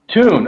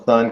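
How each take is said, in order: First: The name begins with a t sound. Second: The name begins with a th sound. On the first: The speaker calls it right. "It's Tune" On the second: The speaker calls it wrong. "because I'm saying it wrong"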